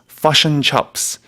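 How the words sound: The vowel in chips sounds like up. "New Zealanders... I'm sorry for my accent... the I gets replaced with a U sound"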